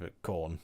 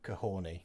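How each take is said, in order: First: The name is said in its usual form. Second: The name is said following its spelling. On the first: The speaker calls it right. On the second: The speaker calls it wrong.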